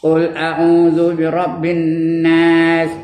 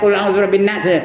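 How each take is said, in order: First: The vowel in the last word is held long. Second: The vowel in the last word is cut short. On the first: The speaker calls it right. "Nas tu mesti paling komanya dua harakat" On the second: The speaker calls it wrong. "Jangan ... Kadang nak laju je, nak cepat je"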